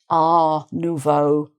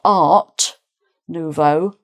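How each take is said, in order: First: The T at the end of art is silent. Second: The T at the end of art is pronounced. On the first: The speaker calls it right. "people might tend to leave off the, the T sound" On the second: The speaker calls it wrong. "so it's not Art Nouveau"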